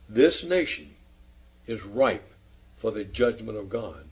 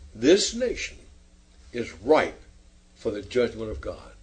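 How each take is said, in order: First: It is said calmly and very clearly. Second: It is said with strong emotion.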